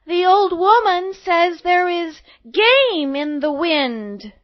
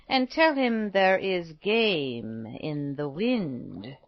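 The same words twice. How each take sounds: First: Put-on high, loud, drawn-out girlish delivery; little girl announcing. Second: Put-on slow, drawn-out old woman's message; cryptic old woman. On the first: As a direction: call the message out slowly as a little girl. Girl relays message to huntsman. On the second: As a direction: intone it slowly like a mysterious old woman. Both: A narrator's reading.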